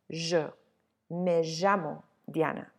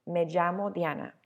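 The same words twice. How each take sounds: First: Llamo as "ZHAH-mo", LL like the end of beige; Argentine llamo. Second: Llamo as "JAH-mo", not quite a full J; Puerto Rican llamo. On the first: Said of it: "in Argentina, it's more likely to be pronounced". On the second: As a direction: say llamo with a light English J. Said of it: "closer to an English J". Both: Shown as a demonstration.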